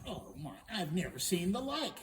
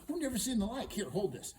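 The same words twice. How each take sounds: First: Loud, astonished princess; amazed princess. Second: High, loud "I've never seen the like"; brisk exclamation. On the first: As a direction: marvel at "I've never seen the like". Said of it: "she's going". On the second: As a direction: toss it out high and busy. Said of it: "she goes". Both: Acted.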